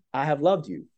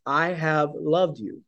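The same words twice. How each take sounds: First: Said in the usual way. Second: God's tender declaration. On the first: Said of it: "When God says". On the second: Retold or imitated. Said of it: "Yahweh saying to the Israelites".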